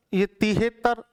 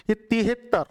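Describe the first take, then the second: No difference in how they are said.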